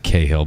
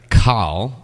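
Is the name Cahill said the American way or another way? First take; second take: American; other. First: The name is said the American way. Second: The name is said in a non-American way.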